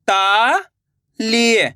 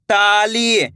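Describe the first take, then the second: First: Very slow, each syllable drawn out; slow syllable reading. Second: Said in the usual way. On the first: Shown as a demonstration. Teacher showing pupils how to sound out ताली slowly. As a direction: say it apart, slowly. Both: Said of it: "तो मिलके बन जाएगा".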